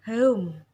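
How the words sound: The vowel glides from a central e-sound to u. "Kalau menurut British itu dibaca home"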